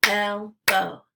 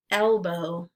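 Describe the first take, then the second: First: "Elbow" as two separate beats, El – bow; syllables split apart. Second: Said in the usual way. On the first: Shown as a demonstration. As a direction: say "Elbow" syllable by syllable, pausing between. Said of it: "break it into the syllables". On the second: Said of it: "repeat the word".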